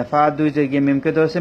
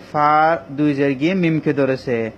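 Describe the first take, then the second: First: Said in the usual way. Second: Slow, word by word: এবং ফা দুই জের গিয়ে মিমকে ধরেছে; slow spelling demo. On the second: Shown as a demonstration. Quran teacher spelling slowly for students. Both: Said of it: "মিমকে গুণা করতে হবে".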